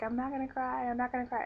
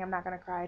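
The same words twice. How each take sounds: First: High-pitched retold self-talk against crying; holding back tears. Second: Said in the usual way. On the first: Patient wheeled away from family, mock holding back tears. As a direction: act out trying not to cry, voice lifted high. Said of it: "as I'm saying, I'm not gonna cry, tears". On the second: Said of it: "And as I'm saying".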